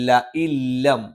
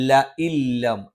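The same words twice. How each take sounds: Both takes have the same delivery.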